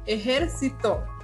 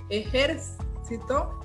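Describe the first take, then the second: First: The stress is on the third syllable. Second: The stress is on the second syllable. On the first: "es una palabra grave porque su sílaba tónica es la penúltima" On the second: "es esdrújula porque su, su sílaba tónica es la antepenúltima"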